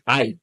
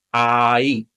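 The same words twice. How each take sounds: First: Ay as one short syllable, like English eye; "ay" said eye, with no break between vowels; merged diphthong. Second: Ay with a long ah sliding into ee; "ay" as drawn-out aaah-ee; two vowels slowly joined. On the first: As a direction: blend ah and ee into a quick "ay". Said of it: "which becomes ay". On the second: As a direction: stretch the a of "ay" before gliding to i. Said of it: "So together, that's". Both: Shown as a demonstration.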